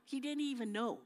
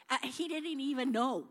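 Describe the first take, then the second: First: Said in the usual way. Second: Lightly excited retelling; amused emphasis. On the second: Acted. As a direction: tell it like it's the funny part.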